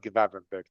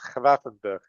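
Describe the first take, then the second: First: The first G is a hard English G. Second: The first G is not a hard G. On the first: The speaker calls it wrong. "because you kept saying it the whole season" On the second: The speaker calls it right. "They don't pronounce the G in the Netherlands"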